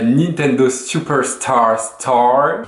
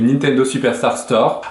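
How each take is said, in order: First: It is said with a put-on English accent. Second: It is said with a French accent. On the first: The speaker calls it wrong. "j'aime bien faire le mec genre qui prend un accent anglais" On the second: The speaker calls it right. "Avec un accent français, ça le fait tout de suite mieux"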